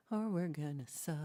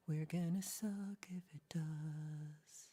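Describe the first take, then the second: First: Said in the usual way. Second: Whisper. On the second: Acted. Whispered repeat.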